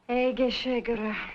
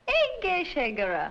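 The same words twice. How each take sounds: First: It is said in a flat tone. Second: It is said in a cheerful tone.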